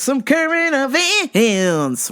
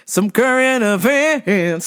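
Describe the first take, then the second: First: Even slower, higher drawn-out intro; slower announcer. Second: Stretched-out show announcer tone; slow announcer. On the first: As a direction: stretch each word out more. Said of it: "repeat, slower and higher". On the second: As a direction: drag out some current events. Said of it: "drawn-out segment intro". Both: Shown as a demonstration.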